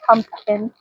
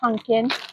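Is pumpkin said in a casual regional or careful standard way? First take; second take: careful standard; casual regional. First: It is said in a careful standard way. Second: It is said in a casual regional way. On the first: This is how her husband says it. The speaker calls it right. "My husband says pumpkin" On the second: This is how the speaker herself says it. The speaker calls it wrong. "I say pumpkin"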